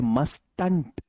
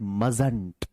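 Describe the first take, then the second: First: A t sound is heard before the n. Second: No t sound is heard before the n. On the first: This is the full written form of the word. "Must का negative बनता है मस्टंट" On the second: This is how the word is actually spoken. "बोला जाता है मजंट"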